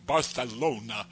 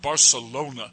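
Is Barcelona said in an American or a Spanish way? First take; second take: Spanish; American. First: It is said the way they say it in Spain. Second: It is said the plain American English way.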